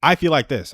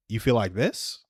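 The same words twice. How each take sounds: First: Said in the usual way. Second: "You feel like this?" echoed back with the pitch rising on "this"; a gentle rising echo of "You feel like this?", softer than the lines around it; questioning tone. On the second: Shown as a demonstration. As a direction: mirror her words back and lift the end like a question. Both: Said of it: "And I would do it in a questioning tone".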